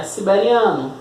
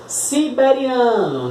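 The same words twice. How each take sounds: First: Said in the usual way. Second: "Siberiano" slower and higher, SI-BE-RI-A-NO; slow enunciation. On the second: Shown as a demonstration. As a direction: spell out the sounds of "Siberiano" for counting. Palavra para contar sílabas. ("Siberiano" devagar, bem articulado)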